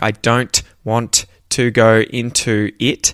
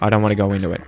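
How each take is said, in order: First: The T sounds are clearly pronounced. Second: The T sounds are dropped or softened. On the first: "it's important for you to say it properly and be able to say it properly. Like" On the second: "when said quickly, those T's disappear and they sound a little more like D's, or they're not there at all"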